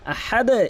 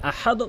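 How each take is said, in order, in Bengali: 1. শেষের d নিচের দিকে ধাক্কা দিয়ে শেষ হয়। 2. শেষের d সাধারণভাবে, কোনো ধাক্কা ছাড়াই শেষ হয়। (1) "আহাদ এভাবে বলবেন" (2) "কখনোই আহাদ বা আহাদ বলবেন না"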